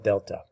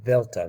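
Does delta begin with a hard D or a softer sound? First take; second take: hard D; softer sound. First: The word begins with a hard D sound. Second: The word begins without a hard D sound. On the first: The speaker calls it wrong. "not delta" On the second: The speaker calls it right. "you don't actually say D, you say delta"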